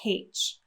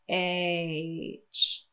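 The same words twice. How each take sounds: First: It begins with an added breathy h sound. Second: It begins directly with a voiced vowel sound. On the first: The speaker calls it wrong. "if we did that, it would sound like H" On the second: The speaker calls it right. "you should feel vibration from the throat right away"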